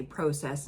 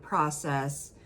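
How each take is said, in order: First: "process" with a long O, like "proh-cess"; Canadian process. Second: Said in the usual way. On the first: Shown as a demonstration. Host showing how Canadians say it, "process" as "proh-cess". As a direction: say the first vowel of "process" as oh. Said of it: "They say process instead of process". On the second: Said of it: "instead of process".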